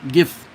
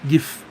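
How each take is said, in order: First: It begins with a hard G sound. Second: The same.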